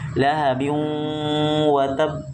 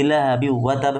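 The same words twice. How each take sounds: First: It is read unhurried with the nasal held long. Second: It is read too fast with the nasal cut short. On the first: The speaker calls it right. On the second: The speaker calls it wrong. "Itu terlalu cepat"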